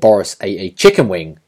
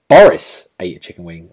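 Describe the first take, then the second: First: The stress falls on the words chicken wing. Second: The stress falls on the word Boris. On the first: It is in question whether he ate something different. "as if to say it could have been something different" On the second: It is in question whether it was Boris or someone else. "like you start to question like whether it's Boris or someone else"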